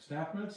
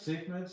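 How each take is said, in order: First: The first word has a short 'a' vowel. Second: The first word has a long 'ay' vowel. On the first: This is how most people say it. "the world all pronounces them staff meds" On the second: This is how the speaker first learned it. "I always learned them as safe meds"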